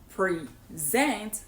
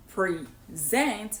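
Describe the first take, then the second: First: The stress is on the second syllable. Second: The same.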